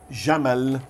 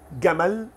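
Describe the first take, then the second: First: The first sound is a soft j. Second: The first sound is a hard g. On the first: "ela tem esse som J" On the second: "eles trocam por som de G em gato"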